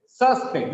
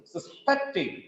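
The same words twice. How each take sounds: First: SUSpect, strong Sus; stress on first syllable. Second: "Suspecting" as sus-PECT-ing; weak sus, strong PECT in "Suspecting"; stress on second syllable. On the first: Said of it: "The stress is on first syllable". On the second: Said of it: "The stress is on second syllable". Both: Shown as a demonstration.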